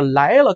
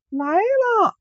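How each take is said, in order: First: Said in the usual way. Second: Very high, sweet sung-out reply; high, lilting girl's "来了"; sweet maiden's answer. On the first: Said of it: "就这个". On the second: Acted. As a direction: answer like an oriole singing. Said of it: "这声音跟黄鹂鸟一样啊".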